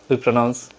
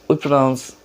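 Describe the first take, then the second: Both takes have the same delivery.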